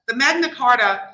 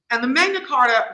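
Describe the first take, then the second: First: Said in the usual way. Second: Magna Carta in a New York accent, broad vowels. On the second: Real, not acted. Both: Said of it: "that was my New York accent coming out".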